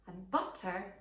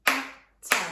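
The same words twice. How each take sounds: First: Said in the usual way. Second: "butter" whispered in two clear beats; breathy loud whisper of "butter", syllable by syllable; syllable-split whisper. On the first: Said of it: "one syllable". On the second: Shown as a demonstration. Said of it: "Butter has two syllables".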